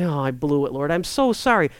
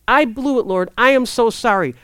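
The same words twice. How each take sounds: First: Said in the usual way. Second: I AM so sorry, with the stress on "I" and a falling close; mean every word of "I am so sorry"; earnest apology. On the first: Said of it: "Are we saying that?". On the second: Shown as a demonstration. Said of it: "Here's the thing".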